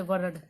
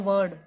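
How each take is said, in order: First: वर्ड with a sounded r, as "va-rad"; R pronounced. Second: वर्ड said as "vad", with no r; silent R. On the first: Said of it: "ये नहीं बोलते". (वर्ड को 'वरड' बोलें, 'र' सुनाई दे) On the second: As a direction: drop the r, vowel straight into d in वर्ड. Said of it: "हम बोलते हैं वर्ड". (वर्ड को 'वड' बोलें, 'र' चुप) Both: Shown as a demonstration.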